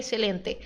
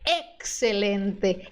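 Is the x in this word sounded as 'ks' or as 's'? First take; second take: s; ks. First: The x is sounded without a k, like s. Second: The x is sounded as k plus s. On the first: The speaker calls it wrong. "não é excelente" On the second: The speaker calls it right. "X tem som de K S no espanhol"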